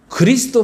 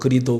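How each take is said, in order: First: The word is said with all its sounds. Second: The word is said with the 's' sound dropped. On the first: "그리스도 발음이 안 되시잖아요" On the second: "그리도 그러시잖아요"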